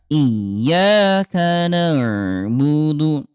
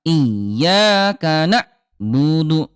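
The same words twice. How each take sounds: First: "iyyaka na'budu" slow with a smooth ain; flowing ain. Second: "iyyaka na'budu" slow with a jolted ain; slow recitation, hard ain. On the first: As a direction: let the ain in "na'budu" flow. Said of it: "Yang kedua". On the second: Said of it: "Ulangi lagi, yang pertama". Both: Shown as a demonstration.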